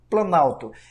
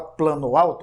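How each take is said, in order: First: The two words fuse, losing a vowel. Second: The two words are said separately, each complete. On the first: The speaker calls it right. "a gente fala planalto" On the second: The speaker calls it wrong. "a gente não fala plano alto"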